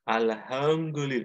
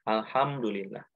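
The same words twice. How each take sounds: First: It is said with the mouth held open. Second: It is said with the lips closing together. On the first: It cannot be said properly without closing the lips. The speaker calls it wrong. "nggak bisa" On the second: The lips must touch to say it. The speaker calls it right. "Harus menempel"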